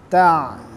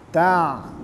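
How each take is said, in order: Both takes have the same delivery.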